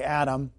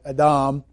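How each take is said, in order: First: The name is said with the usual English pronunciation. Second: The name is said with a Hebrew pronunciation. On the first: "but we say Adam" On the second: "Adam should be pronounced something like Adam"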